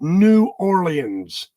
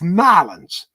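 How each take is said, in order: First: The name is said in full, all syllables. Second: The name is squeezed into two short syllables. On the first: This is how outsiders say it. The speaker calls it wrong. "You do not pronounce it New Orleans. That's how you do it in the West" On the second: This is how locals say it. The speaker calls it right. "you got to call it what it is. It's Nolens"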